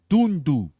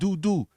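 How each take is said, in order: First: The first syllable ends with an N sound. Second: The first syllable ends without an N sound. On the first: The speaker calls it right. "It's doon with an N at the end" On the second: The speaker calls it wrong. "it's not doo doo"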